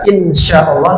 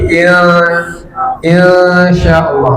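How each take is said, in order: First: The n is pronounced clearly and briefly. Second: The n is blurred into a long nasal hum. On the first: The speaker calls it wrong. "Tidak dibaca" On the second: The speaker calls it right. "Agak lama dia. Disamarkan lalu dilamakan"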